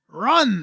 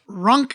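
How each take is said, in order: First: The word ends in an n sound. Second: The word ends in a k sound. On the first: The speaker calls it wrong. "you're leaving out a letter" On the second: The speaker calls it right. "There you go"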